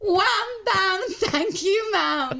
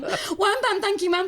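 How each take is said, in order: First: High, laughing catchphrase. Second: High and bright sign-off; excited. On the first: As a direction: squeal it through giggles. Repeating guest's catchphrase laughing. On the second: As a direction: sing it out giddily. Repeating catchphrase again. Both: Real, not acted.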